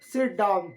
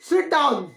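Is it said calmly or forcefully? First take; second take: calmly; forcefully. First: It is said calmly, as a plain request. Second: It is said forcefully, as a strong exclamation.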